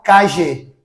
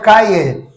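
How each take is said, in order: First: It is said in a Buenos Aires Spanish accent. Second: It is said in a Castilian Spanish accent. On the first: "Os portenhos, eles falam calle"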